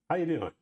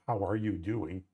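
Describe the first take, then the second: First: The words are smashed together casually. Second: Every word is said clearly and fully.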